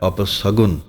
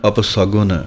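Both takes have the same delivery.

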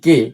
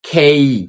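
First: The k sound is plain, with no puff of air. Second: The k sound is aspirated, with a puff of air. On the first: The speaker calls it wrong. "আসলে আমরা এটাকে সবাই বলি কে" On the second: The speaker calls it right. "ক ক দিয়ে হবে না, হবে খ দিয়ে"

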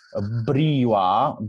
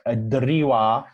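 First: The word is said with a 'br' cluster. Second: The word is said with a 'dr' cluster. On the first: This is the old reading of the word. The speaker calls it right. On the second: This is the modern reading of the word. The speaker calls it wrong.

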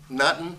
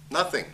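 First: The word ends clipped, like nuttin. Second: The word ends fully, with th and ng. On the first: The speaker calls it wrong. "It isn't nuttin'" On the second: The speaker calls it right. "If it's written as nothing, then it's"

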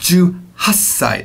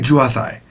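First: The s sound is held long as a double consonant. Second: The s sound is short, with no held consonant. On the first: The speaker calls it right. "It's 18歳. That double S is very important" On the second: The speaker calls it wrong. "I'm not saying 18歳"

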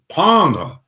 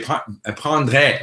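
First: The vowels are pronounced the native French way. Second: The vowels are pronounced the Spanish or Italian way. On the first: The speaker calls it right. "Instead of saying" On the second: The speaker calls it wrong. "they say prendre, like the O becomes an E"

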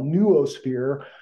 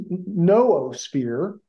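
First: The double O is said as two syllables. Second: The double O is said as one syllable. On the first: "I kind of pronounce it like you would zoological" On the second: "some people who were trying to say that the correct pronunciation is noosphere"

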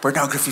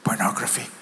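First: The word is spoken aloud, more loudly. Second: The word is whispered very quietly. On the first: The speaker needs to be heard. "I had to speak louder" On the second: The speaker is ashamed to say it. "And so I whispered"

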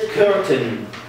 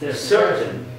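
First: The word begins with a hard k sound. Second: The word begins with an s sound. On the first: The speaker calls it wrong. "Muhammad said curtain" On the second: The speaker calls it right. "When C followed by, vowel. Should pronounce it like S"

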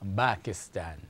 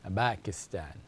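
The two takes are said the same way.

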